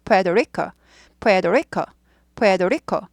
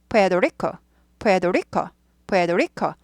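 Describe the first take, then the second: The two takes are said the same way.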